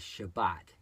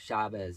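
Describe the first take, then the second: First: It is said in a Sephardic pronunciation. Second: It is said in an Ashkenazi pronunciation.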